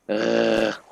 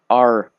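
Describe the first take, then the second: First: The R is a rasp in the throat. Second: The R is made with the tongue. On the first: The speaker calls it right. "like more um when you clear your throat" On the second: The speaker calls it wrong. "you don't say the R like R, like in the pirates, yar"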